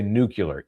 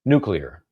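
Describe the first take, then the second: First: It is not said like new plus clear. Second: It is said like new plus clear. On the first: The speaker calls it wrong. "It drives me crazy" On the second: The speaker calls it right. "It's like two words, new and clear"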